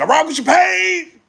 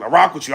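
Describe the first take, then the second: First: Higher, louder call to Payne; loud friendly shout-out to Payne; enthusiastic shout-out. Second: Said in the usual way. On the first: Real, not acted.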